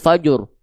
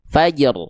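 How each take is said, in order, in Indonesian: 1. Ada vokal u tambahan setelah j. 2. Huruf j hanya dipantulkan ringan. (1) "Pantulannya jangan jadi fajur" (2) "Jimnya tipis pantulannya"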